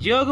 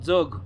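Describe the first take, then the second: First: The first consonant is palatal, with a y-like glide. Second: The first consonant is dental, like dz. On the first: It means the world. "य लावून होतो ... तालव्य" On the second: It means to live. "अ लावून झाला ... दंत तालव्य"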